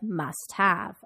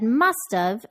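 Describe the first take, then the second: First: The word have is said fully and clearly. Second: The word have is reduced to a short contraction. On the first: "instead of must have" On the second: "I said must have"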